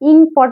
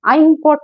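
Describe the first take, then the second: First: The word begins with a short 'ih' sound. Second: The word begins with an 'eye' sound. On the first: The speaker calls it right. "ইংপট বলি আমরা" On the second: The speaker calls it wrong. "আই তো না"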